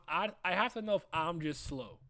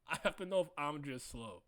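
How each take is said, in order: First: Said in the usual way. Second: Laughing through the words, softer. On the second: Real, not acted. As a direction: repeat it while cracking up. Repeats own question laughing.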